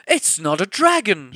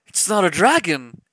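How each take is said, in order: First: Loud high shout. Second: Louder, higher exclamation; second advisor exclaims in shock; exclaimed. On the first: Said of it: "shouted the third". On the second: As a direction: cry it out in shock. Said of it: "exclaimed the second advisor". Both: Acted.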